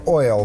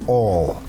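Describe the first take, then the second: First: The vowel is a full oi glide. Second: The vowel is flattened so it sounds like all. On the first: "I would say oil" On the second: "but you would say all"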